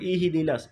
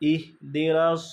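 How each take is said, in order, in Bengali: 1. h ধ্বনির পরে একটি স্বরধ্বনি আসে। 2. h ধ্বনিটি থামিয়ে ধরা হয়, কোনো স্বর থাকে না। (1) "আমরা অনেক সময় পড়ি ইহিদিনাস" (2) "আমাদের এখানে থামতে হবে, আটকায় ফেলতে হবে।"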